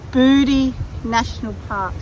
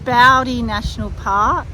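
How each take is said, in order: First: The first vowel sounds like 'oo'. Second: The first vowel sounds like 'ow'. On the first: The speaker calls it right. "and yes, it's Booty National Park" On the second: The speaker calls it wrong. "I thought it was pronounced Bowdy National Park"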